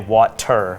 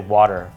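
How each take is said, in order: First: The middle consonant is a clear t sound. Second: The middle consonant is a soft d sound. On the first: "I don't say the T. I don't say water" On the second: "I say water"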